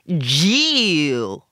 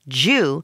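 First: The vowel is stretched out and drawn long. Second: The vowel is kept short and clipped. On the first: It sounds more like a slur. The speaker calls it wrong. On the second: It sounds less like a slur. The speaker calls it right. "if you say it right, short"

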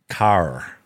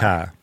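First: It has a strong American R at the end. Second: It has a New Zealand ending without a strong R.

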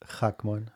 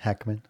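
First: The name is said with a Hebrew pronunciation. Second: The name is said with an English pronunciation. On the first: This is the original way the name is said. "how it's supposed to be said" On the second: This is how others usually say the name. "But you say Hackman"

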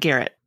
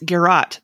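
First: The word sounds like the name Garrett. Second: The word ends with a sound like 'rot'. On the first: The speaker calls it wrong. "not Garrett" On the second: The speaker calls it right. "It's Garrot"

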